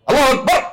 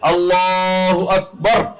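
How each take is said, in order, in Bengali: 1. এটি রুক্ষভাবে বলা হয়, কোনো বিনয় বা আন্তরিকতা ছাড়া। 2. এটি নরমভাবে, বিনয়ের সঙ্গে ও আন্তরিকতা নিয়ে বলা হয়। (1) "এটা কিচ্ছু হলো না। এই জন্য তো বিনয় নাই, ভালোবাসা নাই" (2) "বিনয় এবং ভালোবাসা সহকারে সুন্দর করে"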